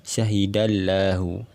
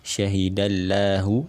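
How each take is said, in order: No difference in how they are said.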